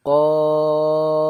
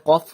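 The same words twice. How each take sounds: First: কফ held long, loud and level; prolonged কফ. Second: Said in the usual way. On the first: Shown as a demonstration. Teacher shows the madd in কফ, prolonged. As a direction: sustain the vowel of কফ loudly on one note. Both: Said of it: "কফকেও টান দিয়ে বলবো".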